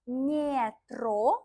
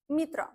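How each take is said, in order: First: The unstressed vowel sounds like a full 'eh'. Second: The unstressed vowel sounds like a short 'ee'. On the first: The speaker calls it wrong. "We don't say metro" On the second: The speaker calls it right. "we say metro"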